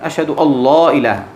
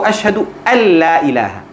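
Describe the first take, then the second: First: The L in 'alla' is heavy and full. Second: The L in 'alla' is light and thin. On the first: The speaker calls it wrong. "नहीं मेरे भाई" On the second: The speaker calls it right. "अल्लाह नहीं है वो"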